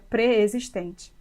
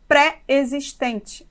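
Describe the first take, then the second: First: The prefix has a reduced vowel, joined to the word. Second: The prefix has an open, separately stressed vowel. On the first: The speaker calls it right. "a palavra se escreve junto e a pronúncia seria" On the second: The speaker calls it wrong. "temos mania de falarmos"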